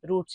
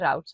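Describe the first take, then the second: First: The vowel sounds like the one in boot. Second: The vowel sounds like the one in out. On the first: "रूट भी ठीक है" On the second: "राउट भी ठीक है"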